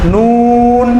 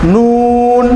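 First: The vowel is drawn out and lengthened. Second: The same.

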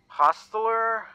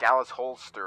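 First: The name is said as Hostler. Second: The name is said as Holster. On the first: The speaker calls it right. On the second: The speaker calls it wrong.

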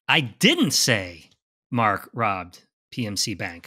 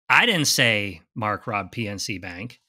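First: The stress is on the word didn't. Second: The stress is on the word Mark.

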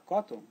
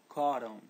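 First: The middle consonant is a clear hard t. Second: The middle consonant is a flapped r sound. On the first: The speaker calls it wrong. "Pode falar cotton? Não, não" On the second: The speaker calls it right. "Tem que substituir os dois T's pelo R de poraco"

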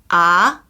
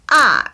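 First: The syllable carries the second tone. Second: The syllable carries the fourth tone. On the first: "2성" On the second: "4성"

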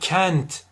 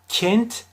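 First: The E vowel is wide open. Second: The E vowel is strongly closed. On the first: "çok açmış olurum" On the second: "kapatırsam çok fazla yanlış olur"

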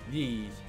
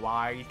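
First: The name rhymes with geese. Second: The name rhymes with eye. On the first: The speaker calls it right. "I think that's how you're supposed to pronounce it" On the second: The speaker calls it wrong. "I've been saying Y"

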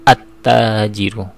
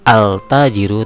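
First: The l merges into a doubled t sound. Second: The l sound is pronounced before the t. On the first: The speaker calls it right. "tapi at-tajiru" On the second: The speaker calls it wrong. "tidak dibaca al-tajiru"

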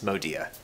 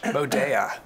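First: The name is said with a plain, non-European pronunciation. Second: The name is said with a posh European pronunciation. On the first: This is how the business says its name. The speaker calls it right. "But it is Modea" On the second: The name sounds fancier. The speaker calls it wrong. "It does sound much more posh"

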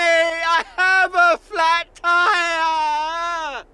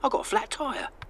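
First: It is said dramatically, with urgency. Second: It is said calmly, without drama.

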